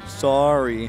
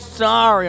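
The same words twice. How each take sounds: First: The word is said quietly and flatly. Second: The word is said much more loudly. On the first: The apology is grudging. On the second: The apology is louder but still not sincere.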